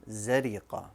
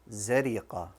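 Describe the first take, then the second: No difference in how they are said.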